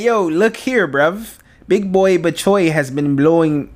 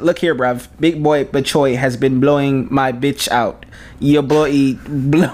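First: Botched British accent drifting into Jamaican; slow, wobbly mock British-Jamaican accent; British gone Jamaican. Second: Slow, deliberate attempt at British; British slang accent, drawn out slowly. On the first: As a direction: aim for British, land nearer Jamaican. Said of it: "That's Jamaican". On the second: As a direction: put on an amateur London-style British accent. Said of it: "my British accent". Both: Shown as a demonstration.

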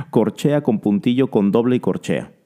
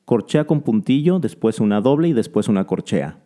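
First: Rapid naming of note values; said quickly. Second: Said in the usual way. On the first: Shown as a demonstration. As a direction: rattle off the rhythm names quickly. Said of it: "lo voy a decir lo más rápido posible". (nombrando las figuras muy rápido)

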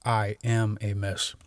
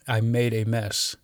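First: AM weighted and set apart; stress on AM. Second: MADE picked out as the contrast word; stress on MADE. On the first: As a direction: lean on "am" as the contrast. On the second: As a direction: lean on "made", naming a deed. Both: Shown as a demonstration. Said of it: "rather than".

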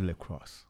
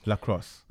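First: "lacrosse" with first syllable like "leck"; first pronunciation tried. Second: "Lacrosse" with an open "lah" first syllable; alternative pronunciation. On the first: Guest unsure how to say the sport, "lacrosse" as leck-ross. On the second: Trying the sport's name another way, "Lacrosse" as lah-cross. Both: Real, not acted. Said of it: "Is it lacrosse or lacrosse".

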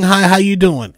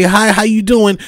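First: Cool, dismissive "Hi, how you doing?"; condescending hi. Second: Said in the usual way. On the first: Shown as a demonstration. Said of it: "don't give that condescending". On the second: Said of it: "Have some respect and say".

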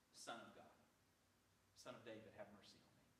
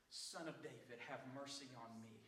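First: Low, soft, understated plea; merely said. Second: Mild acted cry for mercy, lower in pitch; crying out, restrained. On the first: Acted. Preacher showing Bartimaeus did not just say it, low and quiet. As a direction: say it quietly, without crying out. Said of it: "does not say that Bartimaeus said". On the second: Preacher as Bartimaeus refusing silence, a restrained cry out. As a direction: call out firmly without shouting. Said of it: "I'm gonna cry out all the more".

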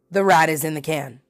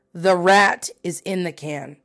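First: Said in the usual way. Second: RAT drawn out, then each word spaced; slow emphasis. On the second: Real, not acted. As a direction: state it slowly, landing on "rat". Repeats conclusion slowly for emphasis.

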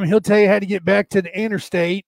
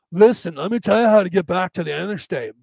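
First: Folksy Southern country directions; light backwoods Southern accent. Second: Put-on surfer-bro accent giving directions; hammed-up surfer voice; surfer dude. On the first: Acted. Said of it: "It's always some Southern accent". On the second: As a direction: explain it like a California surfer dude. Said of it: "the surfer dude".

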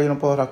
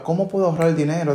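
First: Said in the usual way. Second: A brisk, eager question; quick asking. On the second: Shown as a demonstration. The right phrasing to use, asked quickly. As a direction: ask it like you are already solving it. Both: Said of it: "no diga".

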